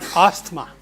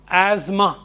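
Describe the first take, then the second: First: The middle 'th' sound is clearly pronounced. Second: The middle 'th' is silent, like 'azma'. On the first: The speaker calls it wrong. "not asthma" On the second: The speaker calls it right. "It is pronounced asthma"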